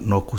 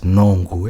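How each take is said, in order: First: There is no nasal before the middle consonant. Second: There is a nasal before the middle consonant. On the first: The speaker calls it wrong. "it's not Noku" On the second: The speaker calls it right. "There's like an N before the Q again"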